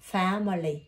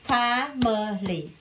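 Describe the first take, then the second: First: Said in the usual way. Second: "Family" very slow, three separate even beats; split into syllables. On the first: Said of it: "Đọc là family". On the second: Shown as a demonstration. Teacher has pupil count syllables, "Family" split apart. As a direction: break "Family" into fa, mə, li. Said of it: "Bao nhiêu âm tiết?".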